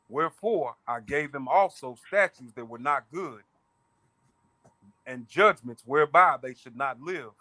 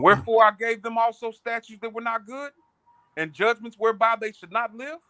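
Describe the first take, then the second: First: It is read as a plain statement. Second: It is read with a questioning tune.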